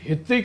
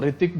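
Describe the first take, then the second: First: The name starts with an audible H sound. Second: The name starts without an H sound. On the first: The speaker calls it wrong. "हितिक नहीं बोलते उसको हम" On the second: The speaker calls it right. "जो ऋतिक बोलते हैं हम"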